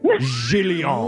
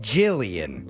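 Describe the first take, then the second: First: The name is said in a fancy, affected way. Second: The name is said in an ordinary, everyday way. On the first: This is the refined way the name is meant. The speaker calls it right. "But no, she is renowned painter Jillion" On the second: This is how common people would say it. The speaker calls it wrong. "the layman's people might pronounce it Jillian"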